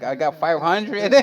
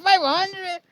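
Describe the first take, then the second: First: Said in the usual way. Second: High amazed question on "Five hundred"; "Five hundred" thrown up high in disbelief. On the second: Retold or imitated. Friend hearing how many videos he has, amazed high repeat.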